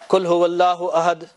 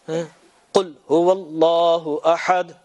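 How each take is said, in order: First: The first word starts with a plain k. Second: The first word starts with a deep throaty q. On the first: It tells the listener to eat. The speaker calls it wrong. "Eat, Allah is covered" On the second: It tells the listener to say that God is one. The speaker calls it right. "Say Allah is one"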